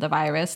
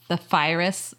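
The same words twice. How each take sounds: First: The word begins with a V sound. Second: The word begins with an F sound, like 'fire'. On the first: This is the usual adult way to say it. "instead of the virus" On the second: This is how a small child says it. "we call it the virus"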